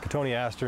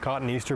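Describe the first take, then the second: First: It sounds like co-tone-ee-aster, five syllables. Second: It sounds like the words cotton and Easter. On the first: The speaker calls it right. "but it's Cotoneaster" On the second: The speaker calls it wrong. "commonly mispronounced as cotton Easter"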